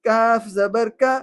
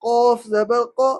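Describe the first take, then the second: First: Slow "کا" with thin k and open a; light kaf. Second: Slow "قو" from the back of the mouth; heavy qaf. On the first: Teacher drilling last pair, thin light "کا". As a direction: keep "کاف" light and forward, drawn out. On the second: Teacher drilling last pair, thick back "قو". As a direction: round "قوف" into a full, heavy q. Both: Shown as a demonstration. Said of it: "آخری جوڑی ہے قوف اور کاف".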